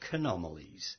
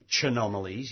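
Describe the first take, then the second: First: The word begins with a k sound. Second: The word begins with a ch sound. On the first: The speaker calls it right. "you're supposed to pronounce it as K" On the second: The speaker calls it wrong. "you don't say Chanomalies"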